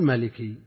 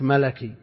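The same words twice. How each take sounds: First: The second letter takes an 'i' vowel. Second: The second letter takes an 'a' vowel. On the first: The speaker calls it wrong. "ما تقول ملكي" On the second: The speaker calls it right. "كما تقول النسبة إلى الملك ملكي"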